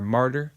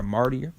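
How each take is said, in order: First: "martyr" said as MAR-der; two syllables in "martyr", no ee sound; corrected martyr pronunciation. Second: "martyr" said as MAR-dee-er; three syllables in "martyr", with an extra ee; mispronounced martyr. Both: Shown as a demonstration. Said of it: "that's how it's pronounced".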